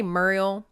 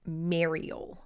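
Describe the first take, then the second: First: MURIEL with a Southern MUR first syllable; Southern-accented MUR sound opening "Muriel"; Southern pronunciation. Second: MARIEL with an open MARE first syllable, softer; correct pronunciation. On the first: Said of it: "So I say Muriel". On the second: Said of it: "But it is". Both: Shown as a demonstration.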